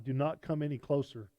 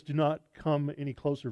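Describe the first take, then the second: First: Said in the usual way. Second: "not" pushed, louder, falling close; stressed warning. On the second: Acted. God warning Moses off the holy ground, "not" stressed. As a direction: lean on "not" as a firm warning.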